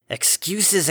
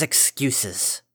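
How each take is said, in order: First: "Excuses" thrown out high and sharp; scornful, raised. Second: Weary dismissal. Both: Acted. Father dismisses her excuse.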